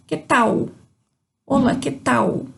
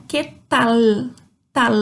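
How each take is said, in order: First: "tal" said as "tau"; Brazilian-style "que tau"; Portuguese U-like L. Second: "tal" ending on a clear, held l; Spanish final L. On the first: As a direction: let the l of "tal" turn into u. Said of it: "Diferente do português, que talvez a gente falaria". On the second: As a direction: finish "tal" with tongue on the palate. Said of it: "A língua termina lá no céu da boca". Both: Shown as a demonstration.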